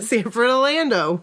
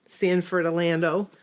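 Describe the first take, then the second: First: A hint of an old-timer; old person voice. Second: Lightly voiced old person. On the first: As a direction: repeat it in a mild elderly voice. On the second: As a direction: say it like an elderly local. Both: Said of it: "You said it like an old person".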